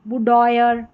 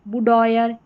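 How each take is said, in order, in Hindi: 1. यह शब्द 'oyer' ध्वनि पर खत्म होता है। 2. यह शब्द 'oyer' ध्वनि पर खत्म होता है।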